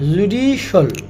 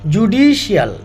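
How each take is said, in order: First: The ending is said as one syllable, shal. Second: The ending is said as two syllables, shee-al. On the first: The speaker calls it right. "এটাও হবে শল" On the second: The speaker calls it wrong. "আমরা যদি বলে থাকি"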